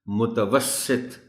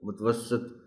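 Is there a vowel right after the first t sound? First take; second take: yes; no. First: A short vowel follows the first t sound. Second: No vowel follows the first t sound. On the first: The speaker calls it right. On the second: The speaker calls it wrong.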